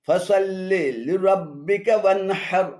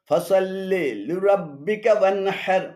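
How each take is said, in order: The two takes are said the same way.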